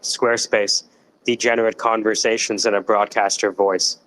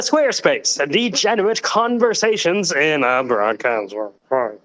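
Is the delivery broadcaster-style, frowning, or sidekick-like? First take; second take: frowning; broadcaster. First: It is said with a frowning, glum tone. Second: It is said in a formal announcer-style voice. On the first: "Or you can do with a frown" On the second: "Or you could actually use the broadcaster voice"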